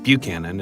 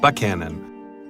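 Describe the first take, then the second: First: It is pronounced the way outsiders say it. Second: It is pronounced the way locals say it. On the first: The speaker calls it wrong. "not Buchanan, as just about anybody else outside of town would say it" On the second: The speaker calls it right. "Chapman's trial was held in Buchanan"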